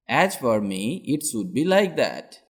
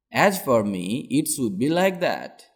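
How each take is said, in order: Both takes have the same delivery.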